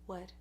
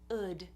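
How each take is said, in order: First: The word starts with a clear W sound. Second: The word starts straight on the vowel. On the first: The speaker calls it right. "there's a W sound in the beginning" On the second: The speaker calls it wrong. "some people don't do the W at all"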